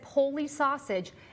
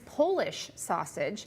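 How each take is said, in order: First: The first word is said without the final 'sh'. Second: The first word is said with the final 'sh'. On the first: The speaker calls it wrong. "My mom, I swear, says Polly sausage" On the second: The speaker calls it right. "and it's Polish sausage"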